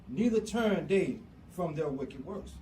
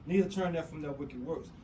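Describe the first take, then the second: First: It is read slowly and crisply. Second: It is read at a normal, quicker pace.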